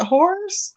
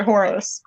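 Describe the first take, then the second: First: Horus said like "horse"; one-syllable Horus. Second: Horus said as "HOR-us"; two-syllable Horus. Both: Shown as a demonstration. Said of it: "Is it Horus or Horus?".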